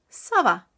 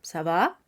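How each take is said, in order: First: The voice falls at the end, like a statement. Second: The voice rises at the end, like a question. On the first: It answers that one is fine. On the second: It asks how someone is.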